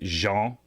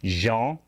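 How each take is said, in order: No difference in how they are said.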